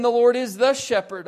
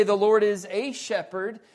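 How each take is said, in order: First: Loud and high, "the" punched; stress on THE. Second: Louder and higher, "a" said as "ay"; stress on A. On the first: Preacher offering another wording he rejects, stress on "the". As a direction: lean hard on "the" before shepherd. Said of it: "or even". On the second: Preacher showing what the psalm doesn't say, stress on "a". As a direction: punch "a" as a full "ay". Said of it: "It doesn't say". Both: Shown as a demonstration.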